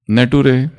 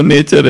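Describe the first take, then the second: First: नटुरे read as it is spelt, na-too-ray; wrong spelling pronunciation, नटुरे; mispronounced "nature". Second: Said in the usual way. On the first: Shown as a demonstration. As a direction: say नटुरे for "nature", sounding out every letter. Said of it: "हमारा pronunciation correct हो". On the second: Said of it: "नटुरे और फटुरे नहीं है".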